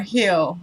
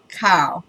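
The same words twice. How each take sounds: First: "Hill", surname read with an H sound; "Hill" starting on a breath of H, no K; alternative pronunciation. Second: "Kyle", surname read with a hard K; "Kyle" with the H left silent; alternative pronunciation. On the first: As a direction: say "Hill", leaving the K silent. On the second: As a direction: say "Kyle", starting on the K sound. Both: Shown as a demonstration. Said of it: "which one of those letters is supposed to be silent".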